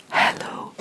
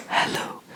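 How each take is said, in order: Both takes have the same delivery.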